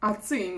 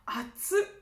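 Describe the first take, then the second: First: The word is said in its full form. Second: The word is said with its ending cut off. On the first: It is hot. "Atsui means hot" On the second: It is extremely hot. "you can just say atsu, like it's fucking hot"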